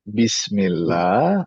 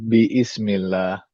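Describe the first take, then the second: First: The word is joined without an extra vowel. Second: An extra vowel is sounded before 'smillah'. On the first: The speaker calls it right. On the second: The speaker calls it wrong.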